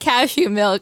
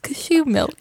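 First: The stress is on the first syllable of cashew. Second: The stress is on the second syllable of cashew. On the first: "It's not cashew milk" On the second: "You put the emphasis on the shoe part of cashew. It's fancier"

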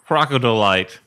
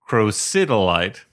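First: The middle sounds like the word crocodile. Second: The middle has a short i vowel. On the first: The speaker calls it wrong. "pronounced like a crocodile version of dolomite" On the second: The speaker calls it right. "the correct pronunciation is crocidolite"

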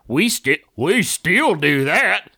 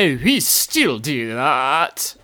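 First: It is read in the speaker's normal accent. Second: It is read in a posh British accent.

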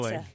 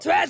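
First: It is said quietly and unnoticeably. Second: It is said loudly in a shrieking voice.

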